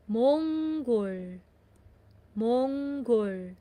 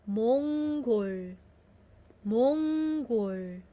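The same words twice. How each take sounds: Both takes have the same delivery.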